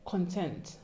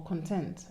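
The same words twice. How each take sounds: First: "Content" with a reduced first vowel, kun-TENT; trying a pronunciation. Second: "content" with a full first vowel, kon-tent; alternative pronunciation. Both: Shown as a demonstration. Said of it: "How do you pronounce that word".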